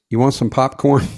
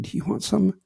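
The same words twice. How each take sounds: First: Imitating someone too loud for a cinema; full-voice question where a whisper belongs; failed whisper. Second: Hushed cinema whisper, acted. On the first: Date offers popcorn during the movie, too loud. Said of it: "some people can't whisper". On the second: Man answers his date during the movie, whispering. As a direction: whisper it discreetly to the person beside you.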